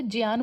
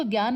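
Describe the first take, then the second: First: ज्ञान said with j, "jyaan"; "jyaan" for ज्ञान, not g; Sanskrit j pronunciation. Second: ज्ञान said with hard g, "gyaan"; everyday g pronunciation. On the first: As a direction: start ज्ञान on a j-y sound. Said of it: "ज्ञान बोलते हैं". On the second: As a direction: start ज्ञान on a g-y sound. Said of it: "इसको ज्ञान नहीं बोलते". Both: Shown as a demonstration.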